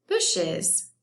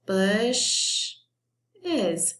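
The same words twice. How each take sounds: First: Said in the usual way. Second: "Bush is" as one word split bush, es; long first beat, pause, then "is"; broken into syllables. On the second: Shown as a demonstration. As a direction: sound out "Bush is" as two parts of bushes. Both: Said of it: "that sounds like two syllables".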